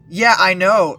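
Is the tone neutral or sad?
neutral. It is said in a plain, neutral tone.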